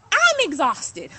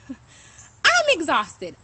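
First: Loud, drawn-out "I'm exhausted", slowed down; exhausted outburst. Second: "I'm exhausted" stretched very slowly through a laugh; laughing exhaustion. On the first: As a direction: lean hard into "exhausted". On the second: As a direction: laugh while dragging out "exhausted". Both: Real, not acted. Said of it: "aggressive at the same time".

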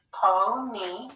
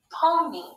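First: PONY in two drawn-out beats, PO then NEE; split into syllables. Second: Said in the usual way. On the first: Shown as a demonstration. Teacher reading a new word to pupils, sounded out in parts. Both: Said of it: "let's read this word".

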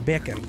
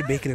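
First: "Bacon" in a Jamaican accent, clean long e. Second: Said in the usual way. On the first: Shown as a demonstration. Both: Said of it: "I say bacon in a Jamaican accent".

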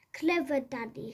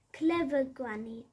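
First: Quick bright praise of Daddy; a quick cheerful well done; lightly praising, quick. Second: Cheering. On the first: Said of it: "said Squeak". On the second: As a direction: cheer her cleverness. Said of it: "cheered Squeak". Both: Acted.

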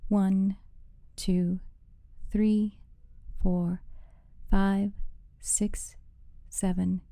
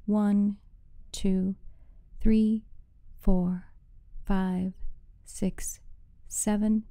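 No difference in how they are said.

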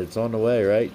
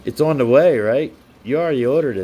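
First: Said in the usual way. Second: Louder, playful nudge to a friend; teasing question. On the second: Real, not acted. To the viewer whose camera is coming, teasing. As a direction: poke him about it cheerfully.

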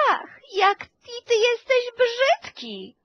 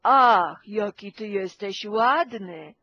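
First: Much higher, cooing sing-song melody; sweet sing-song. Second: Scolding tone. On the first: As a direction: coo "ty jesteś brzydki" as if praising a baby. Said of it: "Jeżeli ja powiem". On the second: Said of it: "A ja powiem". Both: Shown as a demonstration.

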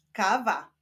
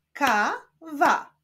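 First: Said in the usual way. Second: KA, pause, WA; syllable by syllable. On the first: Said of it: "Powstaną z nich wyrazy". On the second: Shown as a demonstration. Teacher joining syllables into a word, Ka-wa split apart. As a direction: sound out "Kawa" with a gap between Ka and wa. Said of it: "łączmy sylaby".

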